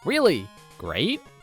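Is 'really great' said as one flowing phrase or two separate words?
two separate. Said as two separate words with a questioning tone. The speaker sounds unsure that it is great. The speaker calls it wrong. "I had the inflection wrong on those words. It's not"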